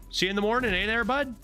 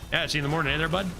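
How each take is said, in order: First: It is said slowly. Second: It is said quickly.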